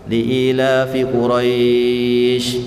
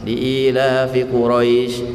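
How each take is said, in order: First: The long vowel is drawn out much longer. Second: The long vowel is held for two beats. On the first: "Atau mau panjang juga bo boleh" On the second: "dua harokat saja cukup"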